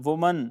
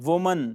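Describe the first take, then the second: The two takes are said the same way.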